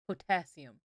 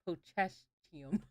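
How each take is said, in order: First: The middle consonants sound like a plain 's'. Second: The middle consonants sound like a 'ch'. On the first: The speaker calls it right. "Am I not pronouncing potassium right?" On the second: The speaker calls it wrong. "It's pronounced pochachium. I know that's wrong"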